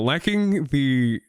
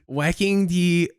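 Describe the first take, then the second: First: It is said in a normal voice. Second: It is said in a cutesy uwu voice.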